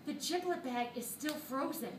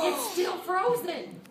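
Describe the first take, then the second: First: Said in the usual way. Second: "frozen" said slow, louder and higher; emphatic slow repeat. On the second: Real, not acted. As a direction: lean hard on "frozen", spelling out the disbelief.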